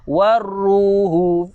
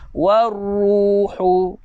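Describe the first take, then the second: First: The h is soft with little breath. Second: The h is strong with much breath. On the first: The speaker calls it wrong. "kalau saya baca dengan ha simpul" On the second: The speaker calls it right. "Ha pedas bunyi dia macam mana?"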